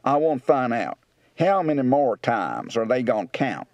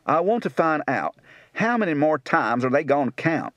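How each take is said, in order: First: Rural Kentucky, "want" as "wont", "gonna" as "gone"; rural Kentucky accent. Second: Rural Tennessee speech; Tennessee accent. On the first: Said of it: "Kentucky, rural". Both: Shown as a demonstration.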